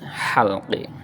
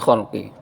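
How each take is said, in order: First: The word starts with a breathy h sound. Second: The word starts with a raspy kh sound. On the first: The speaker calls it right. "harus halqi" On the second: The speaker calls it wrong. "Masih ada yang khalqi. ... Enggak pas"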